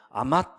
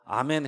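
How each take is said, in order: First: The word ends with a clipped t sound. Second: The word ends with an n sound. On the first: The speaker calls it wrong. "저도 모르게 아맛 이렇게" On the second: The speaker calls it right. "제가 아멘 해야 되는데"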